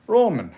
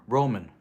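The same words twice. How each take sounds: First: Higher, louder playful call of a name; calling out Roman. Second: Said in the usual way. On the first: Acted. Streamer echoes a game character's cousin's name, calling out. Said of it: "sounds like Nico Bellic's cousin".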